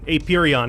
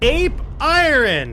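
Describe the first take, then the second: First: It is said as one word, 'aperion'. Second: It is said as 'ape' plus 'iron'. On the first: The speaker calls it wrong. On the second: The speaker calls it right.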